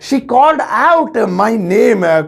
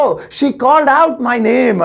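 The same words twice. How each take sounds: First: Slow second take, weight on out; slow careful English repeat. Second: Slow careful English. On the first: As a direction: repeat slowly, leaning on out. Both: Shown as a demonstration. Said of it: "तो उसने मेरा नाम जोर से पुकारा".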